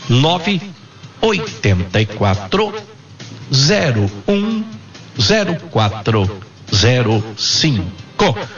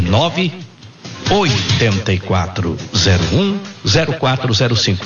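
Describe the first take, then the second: First: The number is said slowly. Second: The number is said fast.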